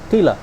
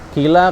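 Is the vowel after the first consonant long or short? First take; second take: short; long. First: The vowel after the first consonant is cut short. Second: The vowel after the first consonant is held long. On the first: "karena nggak kita panjangkan, jadi hilang di situ matnya" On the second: "Kila kan maksud dalam mat, e, masuk dalam mat tabi"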